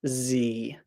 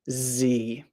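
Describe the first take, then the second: First: The letter is named the American way. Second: The letter is named the American way.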